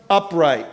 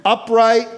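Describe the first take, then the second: First: Said in the usual way. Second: Upright said higher and louder, hit hard; preacher stressing upright, then easing off; emphatic upright. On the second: Acted. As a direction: punch upright as a pulpit proclamation. Repeated word, first take stressed.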